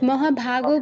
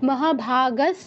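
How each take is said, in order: First: The word ends with an 'o' vowel. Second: The word ends with an 's' sound. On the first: The speaker calls it wrong. "মহাভাগও বললে হবে না" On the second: The speaker calls it right. "না হয় মহাভাগাস বলতে হবে"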